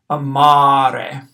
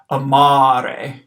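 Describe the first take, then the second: First: "amare" with the second ah held very long and louder; exaggerated long vowel. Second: "amare" with the second a held long; amare drawn out. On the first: Teacher exaggerating "amare" for the class, long held ah. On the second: Teacher modelling "amare" for Latin one students, long second a. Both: Shown as a demonstration. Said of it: "So I've really exaggerated it there".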